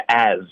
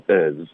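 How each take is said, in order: First: Said in the usual way. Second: "as" reduced to a short schwa plus z; weak form. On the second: Shown as a demonstration. Teacher contrasting full and reduced as, weak form. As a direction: weaken the vowel in "as". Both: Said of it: "这个as就变成as".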